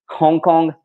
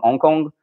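First: Hong Kong higher, with a clearly breathed H; sounded H. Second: Hong Kong with the H left silent; dropped H. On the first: Shown as a demonstration. French speaker retrying Hong Kong for viewers, effortful H. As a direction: push out the H at the start of Hong Kong. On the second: Real, not acted. Correcting own French H in Hong Kong, dropped H. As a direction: say Hong Kong as "Ong Kong", no H sound. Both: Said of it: "Like, the H is terrible".

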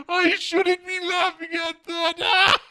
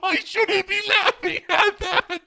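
First: Drawn out slowly through leftover laughter, still high; slow laughing. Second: Giggling through the words, much higher; can't stop laughing while saying it. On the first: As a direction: repeat it slowly, still giggling. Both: Real, not acted.

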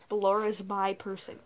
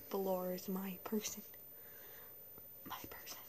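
First: Said in the usual way. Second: Soft unvoiced whisper. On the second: Shown as a demonstration. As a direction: hush it like a secret. Whispered repeat.

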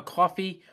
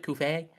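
First: Said in the usual way. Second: "coffee" said as "koo-fay"; own pronunciation of coffee. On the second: Shown as a demonstration. Host plugging the donation page, coffee said "koo-fay". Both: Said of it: "or as I pronounce it".

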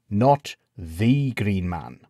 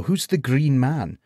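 First: Not stressed, slow and correcting. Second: The Green Man, slow; plain question; stress on the. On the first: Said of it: "piped up the man called Crispin". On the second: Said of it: "said Gawain". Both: A narrator's reading.

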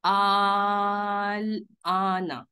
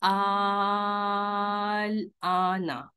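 First: Vowel in आल stretched three counts, slow recitation; three-count madd. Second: Vowel in आल stretched four counts, slower still; four-count madd. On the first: Teacher demonstrates three counts to the online class, stretched slowly. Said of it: "इसको पढ़ेंगे तीन मद से". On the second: Teacher demonstrates four counts to students, held long. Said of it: "चार मद से पढ़ेंगे". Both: Shown as a demonstration.

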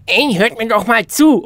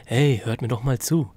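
First: Loud, high, forceful attention-getter; emphatic demo call. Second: Said in the usual way. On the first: Shown as a demonstration. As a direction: call out loudly to grab everyone's attention. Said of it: "Es ist ein Unterschied, wenn ich sage". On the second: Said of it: "oder wenn ich sage".

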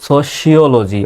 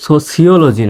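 First: সোশিওলজি slowly as "so-shi-o-lo-ji"; correct "sh" sound. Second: সোশিওলজি said wrongly as "so-si-o-lo-ji"; plain "s" in সোশিওলজি instead of "sh"; mispronounced with "s". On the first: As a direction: lean on a clear "sh" in সোশিওলজি. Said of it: "সির উচ্চারণটা". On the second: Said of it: "সোশিওলজি না". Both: Shown as a demonstration.

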